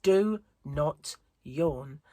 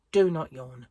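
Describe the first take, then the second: First: Very slow, stretched, pleading self-order; slow drawn-out command. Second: Firm, louder self-order; stern inner command. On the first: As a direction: drag each word out wearily. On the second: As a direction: tell yourself off sharply. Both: Retold or imitated. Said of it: "my inner monologue from yesterday is going".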